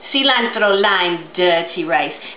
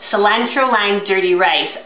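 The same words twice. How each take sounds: First: It is said with a put-on accent. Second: It is said in her normal voice.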